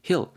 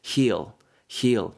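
First: The vowel is said short and clipped. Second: The vowel is said long and drawn out. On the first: The speaker calls it wrong. "heal 이렇게 짧게 하지 마시고" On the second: The speaker calls it right. "heal 좀 길게"

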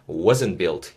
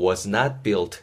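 First: Was and not merge into one contracted word. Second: Was and not are said as separate words.

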